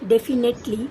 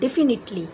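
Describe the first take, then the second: First: The third syllable's vowel sounds like 'eh'. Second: The third syllable's vowel sounds like 'ih'. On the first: The speaker calls it wrong. "এই উচ্চারণটা ঠিক নয়" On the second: The speaker calls it right. "আমরা করব ডেফিনিটলি"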